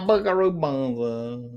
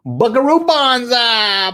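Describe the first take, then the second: First: Savouring the name. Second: High, drawn-out name, savoured; relishing the name. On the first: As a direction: murmur the title slowly, tasting it. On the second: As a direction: belt the title out slowly, loving it. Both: Pretend. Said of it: "I just like saying the name".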